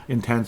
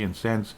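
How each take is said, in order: First: Said in the usual way. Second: "intense" slipped out as "insense"; slip of the tongue. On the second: Real, not acted. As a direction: say "intense" with an s in place of the t. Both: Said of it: "intense, pardon me".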